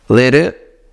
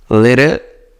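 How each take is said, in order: Both takes have the same delivery.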